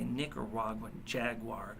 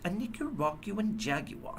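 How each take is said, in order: First: It is said in a plain American accent. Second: It is said in a mocking British accent. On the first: "I'd say" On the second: "that was a mocking tone"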